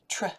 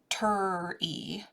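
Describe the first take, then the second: First: The t and r blend with no vowel. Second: A vowel sound comes between t and r. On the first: The speaker calls it right. "it's a tr" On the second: The speaker calls it wrong. "it's not a ter-e"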